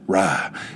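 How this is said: The word has a Southern drawled vowel. It sounds natural and unpretentious. The speaker calls it right. "the way I feel like in the South, the way it's meant to be said"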